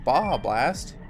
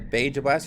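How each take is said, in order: First: The j in Baja is not a hard j. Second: The j in Baja is a hard English j. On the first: The speaker calls it right. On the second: The speaker calls it wrong.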